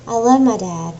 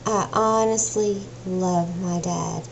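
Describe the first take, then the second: First: Said in the usual way. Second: Telling viewers she truly loves her dad, dwelling on "honestly"; stress on honestly. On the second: Shown as a demonstration. To her viewers, insisting sincerely, with "honestly" stretched and softer.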